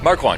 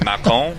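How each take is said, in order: First: The name is said with English pronunciation. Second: The name is said with French pronunciation. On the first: This is how the speaker usually says the name. "I don't say it like that" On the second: This is the original family pronunciation. "the true pronunciation is Macron, which is uh, you know French"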